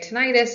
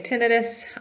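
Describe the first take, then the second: First: The ending sounds like '-itis'. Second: The ending does not sound like '-itis'. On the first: "it sounds like the itis part is an inflammation" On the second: "You'll hear a lot of audiologists say tinnitus"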